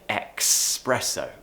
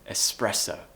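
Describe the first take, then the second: First: It begins with a k sound before the s. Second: It begins with a plain s, no k sound. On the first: The speaker calls it wrong. "Lots of natives think it's like the word express, so they say espresso. No" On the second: The speaker calls it right. "Remove that k sound. It should be espresso"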